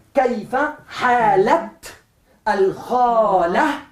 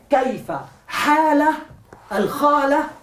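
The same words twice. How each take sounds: First: "halat" very slow, with a clear final t before "al-khala"; slow model phrase, "halat" closed on a crisp t; pronounced t. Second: "hala, al-khala" broken apart, no t ending on "hala"; "kaifa, hala, al-khala" as disconnected words without the linking t; separated words. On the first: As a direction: sound the t in "kaifa halat al-khala", syllable by syllable. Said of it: "obligatoriamente pronunciarla ta". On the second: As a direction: model the mistake: pause after "hala", its t left silent. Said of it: "estoy pronunciando dos palabras separadas".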